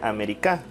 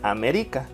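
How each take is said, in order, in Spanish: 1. El acento está en la cuarta sílaba. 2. El acento está en la tercera sílaba. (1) "Y si fuera en K" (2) "Si fuera en ri"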